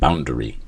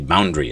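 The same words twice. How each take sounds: First: The middle vowel is pronounced, giving three syllables. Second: The middle vowel is dropped, giving two syllables. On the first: The speaker calls it wrong. "instead of boundary. ... it sounds silly" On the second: The speaker calls it right. "We never really pronounce the A ... We say boundary"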